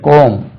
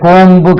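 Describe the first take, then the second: First: The word ends on the m, no b. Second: The word ends with an audible b sound. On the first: The speaker calls it right. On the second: The speaker calls it wrong.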